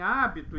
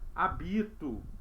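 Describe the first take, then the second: First: The stress is on the first syllable. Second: The stress is on the second syllable.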